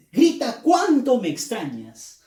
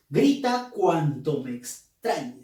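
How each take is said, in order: First: "cuánto" higher and louder, full of admiration; emphatic exclamation. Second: Said in the usual way. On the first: Shown as a demonstration. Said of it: "Con énfasis". (exclamación con énfasis en "cuánto", más aguda y fuerte) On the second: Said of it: "lo está diciendo de forma, de admiración".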